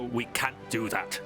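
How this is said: Can't is said with an American-style vowel. "he would just go, ... more akin to my American accent"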